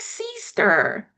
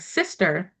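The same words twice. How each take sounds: First: The word has a playfully changed pronunciation. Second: The word has its ordinary pronunciation. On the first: "she likes to change the pronunciation of words" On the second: "instead of saying sister"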